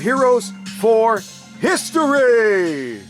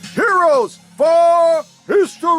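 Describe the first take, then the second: First: It is said in a moderately raised voice. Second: It is said in a much louder, bigger voice.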